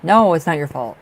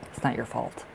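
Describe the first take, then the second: First: Louder, firm insistence; loud emphatic no, comforting her; emphatic reassurance. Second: Softer, gentle repeat; quiet comforting echo of the same words; soft reassurance. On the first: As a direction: insist she is not to blame. Reassuring Lupe, then softer. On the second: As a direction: tenderly reassure her it's not her fault. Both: Real, not acted.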